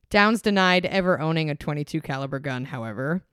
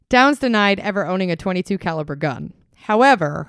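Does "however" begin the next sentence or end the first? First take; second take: ends first; begins next. First: "However" is joined to the end of the sentence. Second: A break comes before "however", which starts anew. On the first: The speaker calls it wrong. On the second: The speaker calls it right.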